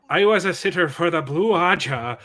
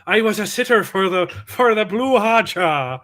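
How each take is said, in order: First: Put-on a light Irish accent on the line; playful Irish accent, a little louder. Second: Put-on Irish accent. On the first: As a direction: say it with a mild Irish lilt, half joking. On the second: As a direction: try an Irish lilt. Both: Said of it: "try it with the Irish accent".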